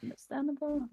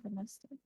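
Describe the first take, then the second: First: Said in the usual way. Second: Much softer, trailing rising repeat; quiet echo. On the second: Shown as a demonstration. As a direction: echo it under your breath.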